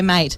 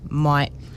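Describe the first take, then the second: First: It is said in a plain, ordinary way. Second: It is said in a broad, exaggerated way. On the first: This is how he normally says it. "he'll say it like that normally" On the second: This is how he says it to people he works with. "if he's talking to anyone that he works with, it's like"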